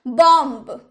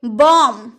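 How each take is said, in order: First: बॉम्ब with the final b sounded; wrong pronunciation. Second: बॉम्ब said as bom, silent b; correct pronunciation. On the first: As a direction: say बॉम्ब ending on a clear b. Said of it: "अगर आप नहीं जानते होंगे ... क्या बोलिएगा". (बॉम्ब में आख़िरी ब साफ़ बोलें) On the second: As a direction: say बॉम्ब ending on m, no b. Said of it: "तो बॉम्ब नहीं, बी तो साइलेंट है". (बॉम्ब को बम की तरह, ब के बिना) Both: Shown as a demonstration.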